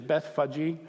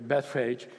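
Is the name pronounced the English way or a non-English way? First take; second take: non-English; English. First: The name has its original, non-English pronunciation. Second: The name has an anglicized English pronunciation. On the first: "actually the pronunciation is Bethphage" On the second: "we're going to go with the English pronunciation here"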